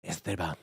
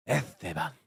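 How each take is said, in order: First: Lower, rolled Spanish Esteban; savoring Spanish name. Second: Lower, breathier Spanish Esteban; savoring Spanish name. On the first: Tasting a sexy name, low and Spanish. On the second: Repeating the sexy name, softer and Spanish. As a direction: let Esteban linger, soft and Spanish. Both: Shown as a demonstration. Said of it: "that's a sexy name".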